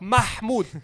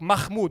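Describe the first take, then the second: First: The middle h is throaty and breathy. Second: The middle h is soft and plain. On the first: A native speaker is saying the name. The speaker calls it right. "I'm like" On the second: The speaker calls it wrong. "They're like"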